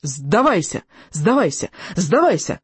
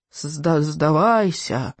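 First: Building, insistent triumphant holler. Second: Slow, drawn-out faltering moan; falter, then groan the plea out slowly.

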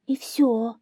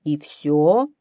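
First: High little hare voice; hare's answer. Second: Loud, incredulous lion; lion's question. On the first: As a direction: admit it as a timid hare. (заяц отвечает тонким голосом) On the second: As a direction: ask it as the commanding lion. (лев громко переспрашивает) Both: A narrator's reading.

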